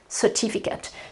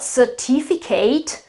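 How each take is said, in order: First: The stress falls on the second syllable. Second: The stress falls on the last syllable. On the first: The speaker calls it right. "the vowel um, on which I have to put the accent is the I" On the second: The speaker calls it wrong. "It's not certificate. Absolutely wrong"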